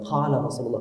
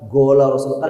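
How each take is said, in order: First: The first word starts with a deep throaty q. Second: The first word starts with a hard g. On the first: The speaker calls it right. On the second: The speaker calls it wrong. "bukan gola Rasulullah"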